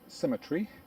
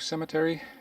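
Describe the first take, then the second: First: It is said in a British accent. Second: It is said in an American accent.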